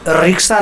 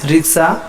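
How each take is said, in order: First: The first vowel is long and pressed. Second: The first vowel is short and light. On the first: The speaker calls it wrong. "रिक्शा नहीं" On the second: The speaker calls it right. "बहुत ज़्यादा उस पर pressure नहीं पड़ा"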